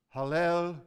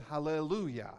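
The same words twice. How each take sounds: First: Hallelujah in separated syllables, last one loud; Hebrew-style Hallelujah. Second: Said in the usual way. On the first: Shown as a demonstration. Preacher shows how Hebrews would cry it, emphatic last syllable of Hallelujah. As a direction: punch the final "jah" of Hallelujah, drawn apart as hallel-u-JAH. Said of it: "they emphasize that last syllable". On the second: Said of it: "We said hallelujah".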